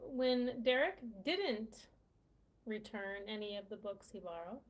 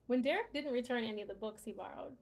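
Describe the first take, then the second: First: The word didn't is pronounced slowly and clearly. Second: The word didn't is said quickly and reduced. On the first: "Now I'm really enunciating enunciating the word didn't" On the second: "let me say it the way that I would say it if I'm speaking to someone"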